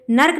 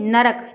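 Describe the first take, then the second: First: नर्क as a single syllable, "nark"; wrong pronunciation. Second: Said in the usual way. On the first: Shown as a demonstration. Teacher corrects "कहते हैं", showing the wrong "nark". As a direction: leave no vowel between r and k in नर्क. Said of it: "नर्क नहीं". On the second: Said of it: "ना और रा और का".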